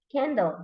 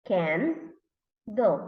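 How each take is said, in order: First: Said in the usual way. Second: "can", pause, "do", as the parts of candle; read by syllables. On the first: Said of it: "read it together". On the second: Shown as a demonstration. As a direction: split "can do" into separate beats. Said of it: "read by syllables".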